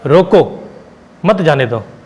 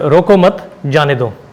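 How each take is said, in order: First: The pause comes right after 'roko'. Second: The pause comes after 'roko mat'.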